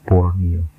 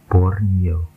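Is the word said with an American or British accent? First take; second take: British; American. First: The word is said with a British accent. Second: The word is said with an American accent. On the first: "British English atau United Kingdom membacanya Borneo" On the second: "American English atau US bacanya Borneo"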